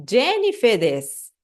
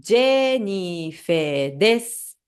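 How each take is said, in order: First: "Jennifer desu" at natural pace, final u dropped to "des". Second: Slow, careful Japanese self-introduction; slow demo. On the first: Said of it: "esse des no final". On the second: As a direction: spell out each syllable slowly. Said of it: "meu caso fica assim". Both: Shown as a demonstration.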